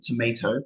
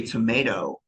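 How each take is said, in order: First: "tomato" as tuh-MAY-toh with a British T; American vowel, London accent. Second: American accent. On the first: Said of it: "Sounds a bit strange in my accent". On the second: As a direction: say "tomato" like an American, T turned to a light D. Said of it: "in their, in their accent". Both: Shown as a demonstration.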